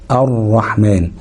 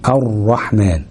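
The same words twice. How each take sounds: First: الرحمن slow with a doubled ر; الرحمن براء مشددة ببطء. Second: Said in the usual way. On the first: Shown as a demonstration. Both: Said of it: "ندغمها".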